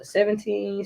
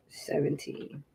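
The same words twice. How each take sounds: First: Said in the usual way. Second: Seventeen whispered under the breath. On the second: Real, not acted. Setting the sprint timer.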